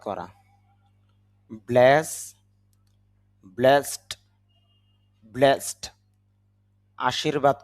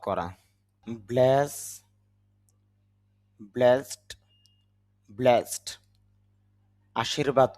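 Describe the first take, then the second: Both takes have the same delivery.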